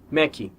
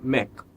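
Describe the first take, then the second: First: It ends with an added ee vowel sound. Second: It ends cleanly on the final k sound. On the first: The speaker calls it wrong. "Mac costuma ser pronunciado Mac" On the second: The speaker calls it right. "E na verdade é Mac"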